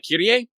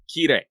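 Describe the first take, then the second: First: The name is said with three syllables. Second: The name is said with two syllables. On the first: The speaker calls it wrong. "which technically is incorrect" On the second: The speaker calls it right. "kind of a long I, but not too long"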